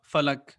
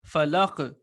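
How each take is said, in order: First: The final consonant stops flatly without any bounce. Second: The final consonant ends with a slight echoing bounce. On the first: The speaker calls it wrong. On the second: The speaker calls it right.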